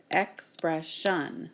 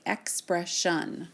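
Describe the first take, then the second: First: Ex-pres-sion, each syllable of "expression" drawn out slowly; slow, split into syllables. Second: Said in the usual way. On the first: Shown as a demonstration. Teacher slowly claps syllables of "expression" for students. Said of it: "We hear three syllables". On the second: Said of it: "we have something like expression or".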